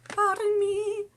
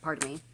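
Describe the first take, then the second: First: Very high, drawn-out apology; silly high voice. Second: Said in the usual way. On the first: Pretend. Speaker excusing a tongue slip, silly high-pitched voice. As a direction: sing it out in a tiny comic voice.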